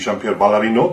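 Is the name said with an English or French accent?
French. The name is said with a French accent. The speaker calls it right.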